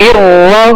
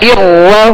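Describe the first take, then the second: The two takes are said the same way.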